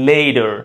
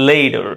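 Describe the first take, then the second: First: It is said with a British accent. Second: It is said with an American accent.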